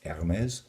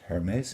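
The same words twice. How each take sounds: First: The word begins without an h sound. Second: The word begins with an h sound. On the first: The speaker calls it right. "it's Hermes" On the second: The speaker calls it wrong. "It's not pronounced Hermes"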